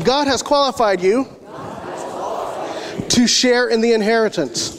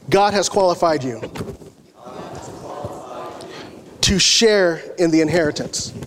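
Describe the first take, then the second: First: It is said with more enthusiasm. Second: It is said with little enthusiasm.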